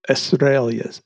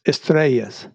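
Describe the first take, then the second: First: Estrellas said plainly, first take; Spanish word Estrellas. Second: Estrellas with a rolled Spanish ring, ehs-TREH-yahs. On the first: Co-host teaching the Spanish word, first plain try. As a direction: say Estrellas in a plain English mouth. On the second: Co-host showing the host the proper Spanish pronunciation. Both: Shown as a demonstration. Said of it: "cómo se dice stars?".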